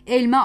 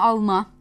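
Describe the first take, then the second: First: The first vowel is an e sound. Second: The first vowel is an a sound. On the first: This is the standard form. "E sesinin de genelde ağlaştığını görüyoruz" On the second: This is the regional dialect form. "E sesinin de genelde ağlaştığını görüyoruz"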